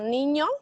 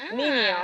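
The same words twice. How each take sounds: First: The middle consonant is an ny sound. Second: The middle consonant is a plain n.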